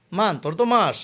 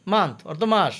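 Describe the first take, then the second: No difference in how they are said.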